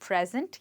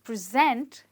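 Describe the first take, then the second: First: The stress is on the first syllable. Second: The stress is on the second syllable. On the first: It means a gift. "the noun is present" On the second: It means to put something before others. "the verb is present"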